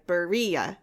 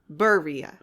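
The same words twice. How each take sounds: First: The stress is on the second syllable. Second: The stress is on the first syllable.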